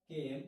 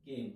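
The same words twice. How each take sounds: First: केम repeated louder and firmer for the class to copy; louder model pronunciation. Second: केम said clearly as one English word, kaym; model word pronunciation. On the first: Teacher repeats केम for pupils, louder and firm. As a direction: stamp केम out louder the second time. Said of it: "क्या बोलते हैं". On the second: Teacher models केम for pupils, clear and plain. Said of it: "इसको क्या बोलते हैं बेटा". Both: Shown as a demonstration.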